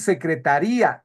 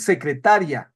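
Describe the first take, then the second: First: The final i and a form two syllables. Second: The final i and a form one syllable. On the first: It refers to a department. "secretaría, el departamento" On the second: It refers to a person. "secretaria, la persona"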